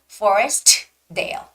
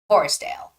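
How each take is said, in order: First: The T is clearly pronounced before Dale. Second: The T is dropped and merges into Dale. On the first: The speaker calls it wrong. "Don't say Forest Dale" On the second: The speaker calls it right. "You don't necessarily have to make the T sound"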